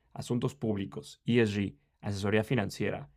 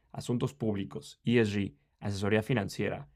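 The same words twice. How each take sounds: Both takes have the same delivery.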